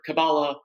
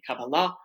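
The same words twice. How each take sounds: First: The word has the usual English pronunciation. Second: The word has the Hebrew pronunciation.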